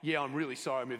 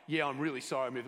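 First: The apology sounds insincere and dismissive. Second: The apology sounds insincere and dismissive.

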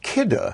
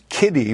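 First: The name does not end with an 'ee' sound. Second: The name ends with an 'ee' sound. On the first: The speaker calls it right. "But it's pronounced KIDDE" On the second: The speaker calls it wrong. "that we might always pronounce as Kiddy"

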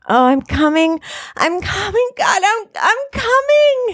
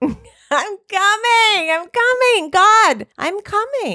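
First: It is said in an aroused, moaning way. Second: It is said in a hurried, impatient way.

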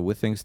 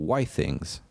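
First: The name is said as 'with' plus 'ings'. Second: The name is said as 'wi' plus 'things'. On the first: The speaker calls it wrong. "to się nie wymawia Withings" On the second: The speaker calls it right. "tylko Withings. ... od Wi-Fi i Things"

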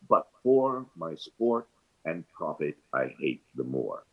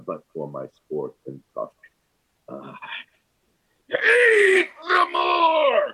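First: It is said evenly as one verse line. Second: It is said with forced emotion, breaking the line.

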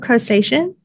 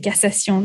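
First: The word is said with an English pronunciation. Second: The word is said with a French pronunciation. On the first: "what is it saying?" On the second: "In French, we say cassation"

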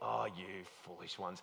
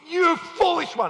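First: It is said gently and softly. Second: It is said with strong irritation.

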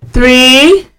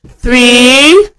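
Both takes have the same delivery.

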